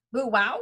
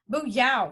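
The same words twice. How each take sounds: First: "Bu wow" with a questioning upward swing; unsure mispronounced attempt. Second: "Bu yao" with "yao" falling firmly; fourth-tone correction. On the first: Newcomer repeating the guide's phrase, "Bu wow" rising unsurely. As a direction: get it wrong, "wow" rising as if asking. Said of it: "sounded like a babbling idiot". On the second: Acted. Guide correcting a newcomer, "Bu yao" with falling tone. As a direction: correct it, dropping the pitch on "yao". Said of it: "fourth tone".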